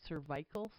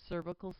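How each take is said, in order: First: The word is said with the British pronunciation. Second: The word is said in the speaker's usual pronunciation.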